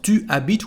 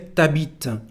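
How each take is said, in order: First: The pronoun is said in full as tu. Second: The pronoun shrinks to a t sound. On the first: "Instead of tu habites" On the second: "we say t'habites"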